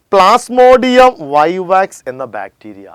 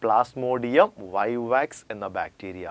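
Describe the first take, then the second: First: Slow, loud and higher dictation; emphatic dictation. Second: Slow and softer repeat. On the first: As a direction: announce the name slowly and loudly. (ഉറക്കെ പതുക്കെ പേര് പറയുന്നു) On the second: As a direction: quietly repeat it slowly, as a reminder. (പതുക്കെ മൃദുവായി ആവർത്തിക്കുന്നു) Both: Shown as a demonstration. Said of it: "എന്താണ്?".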